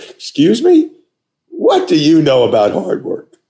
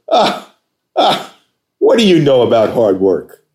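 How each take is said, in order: First: Very high, loud incredulous "Excuse me?"; shocked echo. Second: High, loud scoff then a sneering question; mock the caller's claim to work hard; scoffing challenge. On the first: Retold or imitated. Applicant stunned by the boss's jab, high and incredulous. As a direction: echo the insult back in disbelief. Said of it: "I go". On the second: Boss on the phone scoffing at an applicant, high and loud. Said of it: "Just like that".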